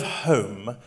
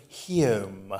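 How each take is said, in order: First: Said in the usual way. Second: Heom said slowly with a posh diphthong, half laughing; posh vowel. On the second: Shown as a demonstration. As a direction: stretch heom into an Edwardian drawl. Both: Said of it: "she talks of heom".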